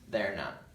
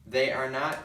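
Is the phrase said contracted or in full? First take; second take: contracted; full. First: The first two words merge into a contraction. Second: Each word is said separately and fully.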